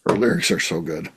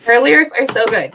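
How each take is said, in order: First: Low, soft mocking repeat; unimpressed imitation of a fan; deadpan echo. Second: Firm, emphatic defence; emphatic fan's rebuttal; insistent praise. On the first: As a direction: parrot the praise back dryly, low and quiet. Dryly echoes the fan's praise. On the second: Real, not acted. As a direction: insist on it, standing up for the singer. Fan insists against the mocking echo.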